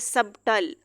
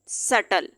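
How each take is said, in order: First: A 'b' sound is heard before the 't'. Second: No 'b' sound is heard before the 't'. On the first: The speaker calls it wrong. "अब हम इसको इस तरह नहीं कह सकते हैं" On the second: The speaker calls it right. "अब बी यहाँ पे साइलेंट हो जाएगा"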